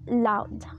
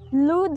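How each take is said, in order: First: The vowel is an 'ow' diphthong. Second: The vowel is a long high 'oo' sound. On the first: This is the pronunciation after the vowel shift. "lowers into the middle of the space and diphthongs" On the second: This is the older Middle English pronunciation. "the high back vowel, the O"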